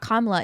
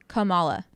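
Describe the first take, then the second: First: Not every a is given a full vowel. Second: Every a is given a full vowel. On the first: The speaker calls it wrong. "it's not" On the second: The speaker calls it right. "like you're just saying every A"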